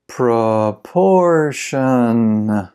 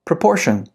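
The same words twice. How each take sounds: First: Very slow, every syllable drawn out; slow-motion model for repeating; slow pronunciation. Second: Said in the usual way. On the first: Shown as a demonstration. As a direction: stretch the word right out for learners. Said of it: "then I'll read it slow". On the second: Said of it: "I'll read it fast".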